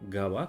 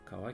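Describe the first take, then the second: First: The word begins with a voiced g sound. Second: The word begins with a voiceless k sound. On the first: The word follows another kanji in a compound. "qui va devenir gawa" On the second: The word stands on its own. "comme kawa"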